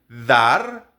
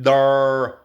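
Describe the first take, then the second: First: Said with a native Spanish accent. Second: Said with an English-speaker's accent. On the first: The speaker calls it right. "Nosotros diríamos dar" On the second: The speaker calls it wrong. "ellos dicen dar"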